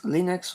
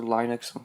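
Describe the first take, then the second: First: Linux said "LIN-ux", short first vowel; Linux pronunciation variant. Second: Linux said "LYE-nux"; Linux pronunciation variant. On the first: Reviewer offering viewers another way to say it, Linux as "LIN-ux". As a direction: say Linux with an "ih" or "ee" sound, no "eye". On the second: Reviewer giving viewers the alternative pronunciation, Linux as "LYE-nux". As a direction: say Linux with a long "eye" in the first syllable. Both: Shown as a demonstration. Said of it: "depending on how you wanna say it".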